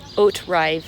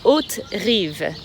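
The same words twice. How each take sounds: First: The name is said with an English accent. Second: The name is said with a French accent.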